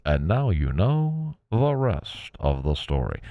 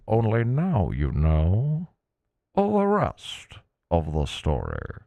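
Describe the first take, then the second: First: Put-on slow, booming old-time radio narrator; Paul Harvey impression. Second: Put-on slow, grand old-time radio voice; 1950s narrator. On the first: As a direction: drag it out like a 1950s radio host. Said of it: "Thank you, Paul Harvey". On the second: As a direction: stretch each word like a vintage broadcaster. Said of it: "I love the old time radio voice".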